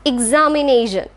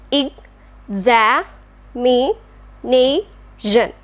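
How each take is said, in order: First: Said in the usual way. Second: Ex-a-mi-nation drawn out very slowly; syllable by syllable. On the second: Shown as a demonstration. Teacher slowly splitting examination into syllables. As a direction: pull "examination" apart into slow separate syllables. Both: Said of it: "Next one is".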